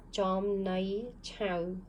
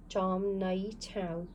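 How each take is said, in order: First: Jom Nai Chow, slow and spelled out; slow model reading. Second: Jom Nai Chow, slow, syllable by syllable; slow model reading. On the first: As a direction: read Jom Nai Chow slowly for students. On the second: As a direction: repeat Jom Nai Chow slowly for the class. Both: Shown as a demonstration. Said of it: "So this is read".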